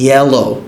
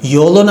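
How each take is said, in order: First: The first syllable sounds like 'yeh'. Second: The first syllable sounds like 'yo'. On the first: The speaker calls it right. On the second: The speaker calls it wrong.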